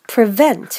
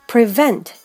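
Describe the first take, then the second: The two takes are said the same way.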